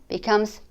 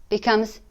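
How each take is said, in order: The two takes are said the same way.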